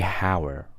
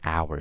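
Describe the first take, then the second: First: The word begins with an h sound. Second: The word begins with a vowel sound. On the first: The speaker calls it wrong. "I don't say hour" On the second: The speaker calls it right. "I say hour, so an hour"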